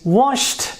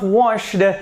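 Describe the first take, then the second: First: The ending is a plain t sound. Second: The ending is not a plain t sound. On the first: The speaker calls it right. "it is washed" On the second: The speaker calls it wrong. "This is not washed"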